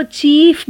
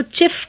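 First: चीफ with a long ee; wrong chief vowel. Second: चिफ with a short i; short chif vowel. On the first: Teacher shows the long-vowel चीफ to avoid. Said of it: "चीफ भी नहीं कहना". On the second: Teacher gives the short-vowel चिफ. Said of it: "चिफ कहना है". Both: Shown as a demonstration.

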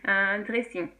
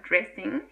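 First: "dressing" with a French r; English loanword in a French accent. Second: "dressing" said as an English word; "dressing" in English amid the French; English pronunciation. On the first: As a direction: pronounce it fully in French. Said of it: "avec l'accent français". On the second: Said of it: "c'est un mot anglais". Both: Shown as a demonstration.

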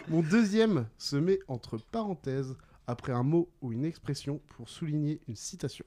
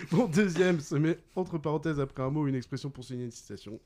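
First: Measured riddle reading. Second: Quick, continuous rereading; brisk recap. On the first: Quizmaster gives players the second clue, deliberately. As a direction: space out each phrase for the players. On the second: Quizmaster repeats the second clue to players, briskly. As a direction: rattle through the clue in one go. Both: Real, not acted.

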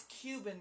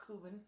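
First: "Cuban" pronounced "KYOO-bun"; Cuban with y-glide. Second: "Cuban" pronounced "KOO-bun", softer; Cuban without y-glide. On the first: Correcting the other speaker's accent, "Cuban" as "KYOO-bun". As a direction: put a y sound after the C in "Cuban". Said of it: "not Cuban". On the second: Showing the rejected accented version, "Cuban" as "KOO-bun". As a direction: drop the y sound from "Cuban", plain oo. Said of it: "It's Cuban". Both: Shown as a demonstration.

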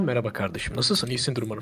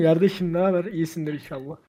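First: Low, soft, proper city manners; quiet, measured, careful standard Turkish; polite standard speech. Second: Local Kozlu greeting in Zonguldak dialect; Zonguldak accent. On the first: Greeting someone in normal company, polite standard speech. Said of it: "normal topluluk içindeyken". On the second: Greeting a friend back in Kozlu, Zonguldak accent. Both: Acted.

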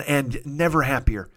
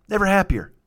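First: Said in the usual way. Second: "Never happier" repeated, higher, leaning on "Never"; emphatic repeat. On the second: Shown as a demonstration. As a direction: punch "Never" as a fond echo.

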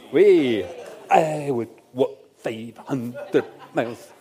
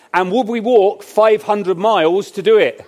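First: Scottish accent. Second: Said in the usual way. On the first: Shown as a demonstration. Preacher quoting the Proclaimers to the congregation, slow mock Scottish accent. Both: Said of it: "apologies for the Scottish accent".

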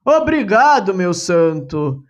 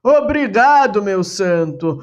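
First: Grateful, hands clasped. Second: Astonished. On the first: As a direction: thank the saint with heartfelt relief. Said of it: "exclamou ele de mãos postas". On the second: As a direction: gasp out the thanks in wonder. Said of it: "num assombro, exclama". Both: Acted.

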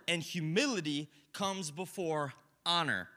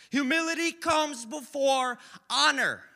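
First: Said in the usual way. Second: Louder and higher, each word stretched out; preacher belting the verse; loud slow proclamation. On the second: Shown as a demonstration. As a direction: proclaim it like the verse's second telling. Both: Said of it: "He says it twice".

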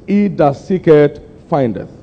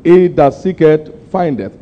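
First: Slow, weighty "He that seeketh"; emphatic scripture. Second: Slow, louder "He that seeketh"; repeated emphasis. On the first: Preacher emphasizing the verse to his flock, slow and weighty. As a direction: lean hard on each word slowly. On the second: Preacher driving the verse home to the congregation, slow and firm. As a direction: repeat it slower and firmer. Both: Shown as a demonstration. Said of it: "what am I trying to emphasize".

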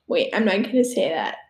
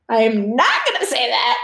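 First: Said in the usual way. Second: "not" leaned on, firm and separate; firm "I am not" with weight on "not"; stress on not. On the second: Real, not acted. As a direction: hit the word "not" to refuse.

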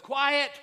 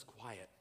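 First: Commanding shout. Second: "Quiet." said low and very soft, falling; calm quiet command. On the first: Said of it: "he simply says". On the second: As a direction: hush the storm with "Quiet." almost under the breath. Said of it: "Jesus gets up and just says". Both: Retold or imitated.

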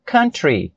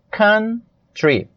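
First: Said in the usual way. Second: "Country" split slowly into "coun... try"; "Country" drawn out for learners, a gap before "try"; syllable by syllable. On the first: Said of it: "vai ser". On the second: Shown as a demonstration. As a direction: break "Country" in two with a clear pause. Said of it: "Porém, a pronúncia".

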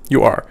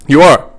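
First: Said in the usual way. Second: "are" punched, a touch higher and louder; stress on are. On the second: Shown as a demonstration. Insisting to listeners who just collect a paycheck, stress on "are". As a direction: hit "are" hard to insist you really are.

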